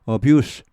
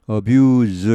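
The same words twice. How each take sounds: First: The final consonant is a voiceless hissing s. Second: The final consonant is a voiced buzzing z. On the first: It is used as a noun. "abuse 명사가 되면은 이게 무성음이 되죠" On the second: It is used as a verb. "동사는 발음이 좀 무겁습니다. 뒤쪽이 항상 abuse 이렇게 하죠"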